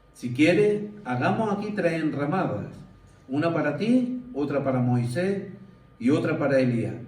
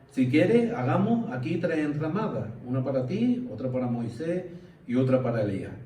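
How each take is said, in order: Both takes have the same delivery.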